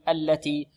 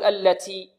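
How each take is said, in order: First: The t has a light, normal breath release. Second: The t has an exaggerated, heavy breathy release. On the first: The speaker calls it right. "هكذا التي التي" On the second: The speaker calls it wrong. "بعض الطلاب يبالغون في الهمس"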